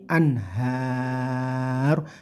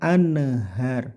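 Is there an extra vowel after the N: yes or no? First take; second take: no; yes. First: The N joins the H with no vowel. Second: An extra short vowel follows the N. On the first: The speaker calls it right. "tapi anhar" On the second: The speaker calls it wrong. "yang sering salah tawalud juga"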